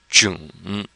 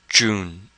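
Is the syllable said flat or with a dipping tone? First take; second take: dipping; flat. First: The syllable is said with a dipping tone. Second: The syllable is said without the dipping tone. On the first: "we add the third tone, and we come up with June" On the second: "you put that together and you come up with June"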